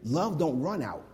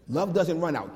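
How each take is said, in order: First: Said in the usual way. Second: Doesn't hit hard and falling; stress on doesn't. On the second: Shown as a demonstration. Correcting himself to the congregation, doesn't stressed.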